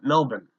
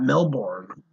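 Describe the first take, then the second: First: The r sound is nearly dropped. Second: The r sound is clearly pronounced. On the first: The speaker calls it right. "they like barely say they are" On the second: The speaker calls it wrong. "not Melbourne"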